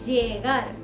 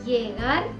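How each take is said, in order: The two takes are said the same way.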